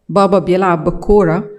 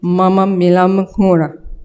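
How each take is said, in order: First: The b sounds are clear, not nasal. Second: The b sounds come out like m.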